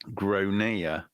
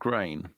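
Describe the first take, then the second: First: The name is said as two syllables, 'GRON-ya'. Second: The name is said as one syllable, 'grain'. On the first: The speaker calls it right. "the kid is called Gronea" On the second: The speaker calls it wrong. "not Grain"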